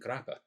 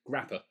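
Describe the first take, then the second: First: The word is said with an Italian accent. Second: The word is said with a Yorkshire accent. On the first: "I don't know why I even tried to pronounce it Italian" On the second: "Grappa in Yorkshire"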